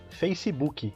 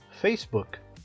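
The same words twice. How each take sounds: First: An extra vowel follows the final k. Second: The word ends cleanly on the k sound. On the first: The speaker calls it wrong. "nós dizemos" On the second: The speaker calls it right. "ao invés de dizer"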